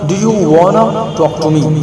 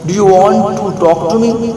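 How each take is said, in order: First: The words 'want to' are reduced to 'wanna'. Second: The words 'want to' are said in full.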